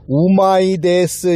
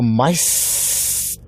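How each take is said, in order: First: Every syllable is pronounced fully and clearly. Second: The first sound drops and it shortens. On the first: "이렇게 정확히 발음 안 하고" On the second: "우 거의 발음 안 하고 마이스"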